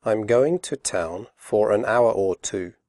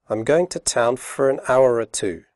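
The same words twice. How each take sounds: First: Slowly. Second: Quickly. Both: Shown as a demonstration. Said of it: "first slowly and then quickly".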